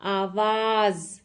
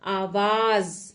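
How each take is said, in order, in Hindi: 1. अंतिम व्यंजन z ध्वनि है। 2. अंतिम व्यंजन z ध्वनि है।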